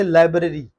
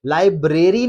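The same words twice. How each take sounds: First: लाइब्रेरी as LAI-bruh-ree; correct pronunciation. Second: लाइब्रेरी as lai-BRAY-ree; long stressed BRAY in लाइब्रेरी; wrong pronunciation. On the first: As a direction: stress LAI, short middle in लाइब्रेरी. (लाइब्रेरी सही, लाइ-ब्र-री) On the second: (लाइब्रेरी ग़लत, लाइ-ब्रे-री) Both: Shown as a demonstration. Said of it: "नहीं पढ़ना इसे".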